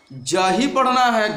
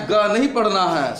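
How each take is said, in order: First: जा said slowly with a clear "j"; slow, firm teaching of जा as the sound of g. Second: गा with g as in go; hard g rejected. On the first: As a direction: state जा as the required reading, slowly. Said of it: "इस जी को अब". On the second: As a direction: rule out गा, sounding a clear hard g. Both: Shown as a demonstration.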